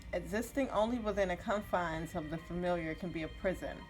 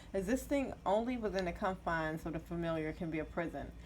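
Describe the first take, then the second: Both takes have the same delivery.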